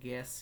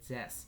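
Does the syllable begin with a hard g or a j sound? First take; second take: hard g; j sound. First: It begins with a hard g sound. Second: It begins with a soft j sound. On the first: The speaker calls it wrong. "এটা গ্যাস হবে না" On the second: The speaker calls it right. "হবে জ্যাস"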